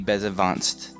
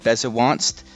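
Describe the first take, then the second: First: The middle consonant is a V sound. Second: The middle consonant is a W sound. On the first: This follows the Japanese pronunciation. "it's actually Bezevanst with a V sound" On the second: This follows the written spelling. "in the light novels, it's spelled Bezewanst"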